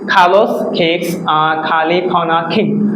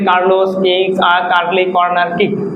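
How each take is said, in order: First: The k sounds have a strong puff of air. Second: The k sounds are plain, without a puff of air. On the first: The speaker calls it right. "আমরা আমাদের সঠিক উচ্চারণভাবে করবো" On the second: The speaker calls it wrong. "আমরা normally কি বলি ... এইভাবে না"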